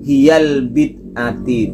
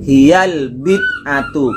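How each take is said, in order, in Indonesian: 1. Kata terakhir berakhir dengan vokal i pendek. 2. Kata terakhir berakhir dengan vokal u pendek. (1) "Yang benar bukan"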